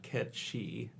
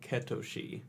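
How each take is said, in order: First: It sounds like 'Ketchi', with a 'ch' sound. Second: It sounds like 'Ketoshi', with three syllables. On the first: It follows the Gaelic pronunciation. "It's pronounced Ketchi because of crazy Gaelic languages" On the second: It follows the original Japanese pronunciation. "the phonetic spelling of it is like Ketoshi"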